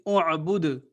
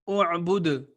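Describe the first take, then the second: No difference in how they are said.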